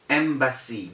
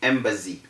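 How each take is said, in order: First: The middle consonant is a voiceless s sound. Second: The middle consonant is a voiced z sound. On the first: The speaker calls it right. "The correct pronunciation is embassy. ... there is no Z sound" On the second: The speaker calls it wrong. "it is very wrong to say embassy"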